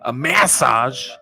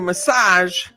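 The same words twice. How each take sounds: First: The word is said the British way. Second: The word is said the American way.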